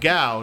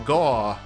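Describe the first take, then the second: First: The vowel glides like 'ow' in 'cow'. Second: The vowel is a flat 'aw' as in 'saw'. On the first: The speaker calls it right. "Like ooh-ow, gow" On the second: The speaker calls it wrong. "not ooh-aw, gaw"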